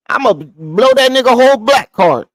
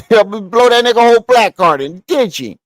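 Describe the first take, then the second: First: Said in the usual way. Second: Laughing through the punchline. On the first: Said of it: "repeats the joke laughing". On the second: Shown as a demonstration. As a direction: repeat the joke while laughing.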